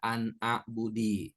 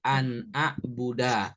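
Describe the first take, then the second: First: The last word ends with an i vowel. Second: The last word ends with an a vowel. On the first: The speaker calls it wrong. "nggak boleh dibaca an a'budi" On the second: The speaker calls it right. "harokat huruf terakhirnya fathah seperti an a'buda"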